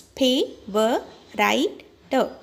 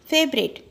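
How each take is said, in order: First: FAVORITE broken into "Pay, were, right, the"; four separate beats with pauses between; syllable by syllable. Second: Said in the usual way. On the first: Shown as a demonstration. Teacher splitting a word for children, Pay, were, right, the spaced out. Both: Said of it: "we have to split it".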